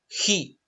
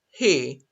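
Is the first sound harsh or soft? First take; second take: harsh; soft. First: It starts with a harsh, throaty h sound. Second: It starts with a soft, breathy h sound. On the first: The speaker calls it wrong. "No es ja" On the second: The speaker calls it right. "it's a soft J"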